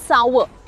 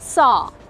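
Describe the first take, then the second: First: It is said in an American accent, with r. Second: It is said in a British accent, without r.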